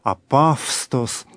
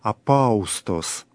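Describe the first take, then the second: First: The middle is pronounced with a 'v' consonant. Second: The middle is pronounced as a vowel glide 'au'. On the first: This is the later pronunciation. "в более позднем произношении" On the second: This is the ancient, scholarly reconstructed pronunciation. "в древнем греческом произношении"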